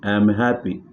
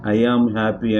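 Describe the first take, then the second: First: I and am are run together as I'm. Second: I and am are said as separate words. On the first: The speaker calls it right. "We should say" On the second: The speaker calls it wrong. "ఐ యామ్ happy అని అనకూడదు"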